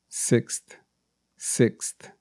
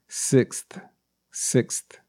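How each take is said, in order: No difference in how they are said.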